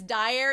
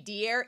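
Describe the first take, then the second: First: The first syllable sounds like 'die'. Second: The first syllable sounds like 'dee'. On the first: The speaker calls it wrong. "what I've been saying is Dyer" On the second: The speaker calls it right. "It's supposed to be Dier"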